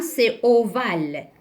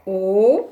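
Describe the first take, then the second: First: Said in the usual way. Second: OVALE split as O, long gap, VALE; syllable by syllable. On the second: Shown as a demonstration. Teacher dictating the shape's name, syllable by syllable. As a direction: stretch the O of OVALE, then VALE separately. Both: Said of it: "mais aussi cette forme".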